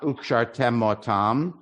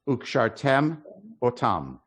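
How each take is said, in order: First: The two words run together without a break. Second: There is a slight break between the words. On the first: The speaker calls it wrong. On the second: The speaker calls it right. "you got to pause so you hear that aleph"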